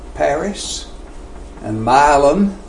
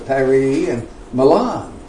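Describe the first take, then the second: First: The names are pronounced the local Tennessee way. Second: The names are pronounced the European way. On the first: "those are not the European pronunciations" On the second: "it's Paris and Milan"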